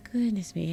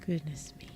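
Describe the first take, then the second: First: Said in the usual way. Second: Goodness me said softly under breath. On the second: Shown as a demonstration. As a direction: murmur it quietly. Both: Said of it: "repeated louder".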